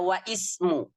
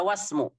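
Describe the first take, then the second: First: The words stay apart with a glottal stop. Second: The words run together with no glottal stop. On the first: The speaker calls it wrong. "tidak dibaca wa ismu" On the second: The speaker calls it right. "Jadi dibaca wasmu"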